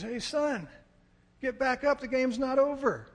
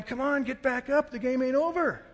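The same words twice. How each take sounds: First: High, raised father's call across a field; rally your son from afar; dad calling out. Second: Loud, high relatives' holler; imitated group yelling. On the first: Retold or imitated. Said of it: "I hear my dad's voice". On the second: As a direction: yell encouragement like a whole family. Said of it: "they're all yelling".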